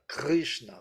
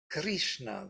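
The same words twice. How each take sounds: First: The r is a throaty, French-like sound. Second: The r is followed by a clear i vowel. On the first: This is the oldest tradition. "this kind of French, yeah, or German sound" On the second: This is the later north Indian usage. "they pronounce it as Ri"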